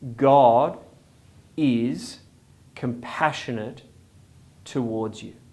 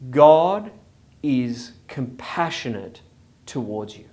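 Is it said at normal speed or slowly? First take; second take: slowly; normal. First: It is said noticeably more slowly. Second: It is said at a normal pace.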